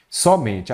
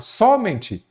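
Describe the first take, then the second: First: Said in the usual way. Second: "Somente" as a high-pitched question, first syllable SO punched; wrong stress. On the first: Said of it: "a sílaba forte é a penúltima". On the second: Shown as a demonstration. Teacher offering students a wrong option, stressed on the first syllable. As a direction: misplace the stress onto SO in "Somente", voice jumping up. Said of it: "Não, não tem esse acento".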